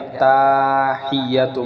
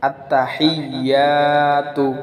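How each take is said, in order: First: The opening 'atta' is drawn out long. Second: The opening 'atta' is said short. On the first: The speaker calls it wrong. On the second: The speaker calls it right.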